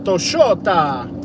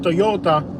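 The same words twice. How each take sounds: First: The middle consonant is an Argentinian-style sound. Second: The middle consonant is a plain y sound. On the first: "Their Y becomes a double L. ... they say Toyota" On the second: "instead of Toyota"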